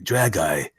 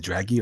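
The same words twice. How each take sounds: First: Dragi said DRAG-eye, ending like "eye"; chosen pronunciation. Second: Dragi said DRAG-ee, ending in "ee"; alternative pronunciation. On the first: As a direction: end Dragi on an "eye" sound. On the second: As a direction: end Dragi on a long "ee" sound. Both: Shown as a demonstration. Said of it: "is it Dragi or Drag".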